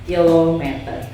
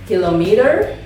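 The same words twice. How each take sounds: First: It is pronounced the Indonesian way. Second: It is pronounced the English way. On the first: "kalau dalam bahasa Indonesia kilometer" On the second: "Kalau dalam bahasa Inggris kilometer"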